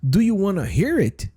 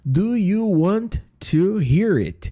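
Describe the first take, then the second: First: Want to is blended into one word, wanna. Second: Want to is said fully as two words. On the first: It is the shorter, more informal phrasing. "substituir o want to por wanna" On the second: It is the formal, grammatically complete phrasing. "gramaticalmente correta, né, vamos dizer assim, o mais certinho"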